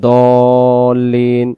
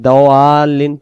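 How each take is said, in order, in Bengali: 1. প্রথম ব্যঞ্জনটি একটি ভারী, মোটা d। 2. প্রথম ব্যঞ্জনটি একটি হালকা, পাতলা d। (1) "দদ অক্ষর দিয়ে দল্লিন" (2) "ভুল হয়ে যাবে"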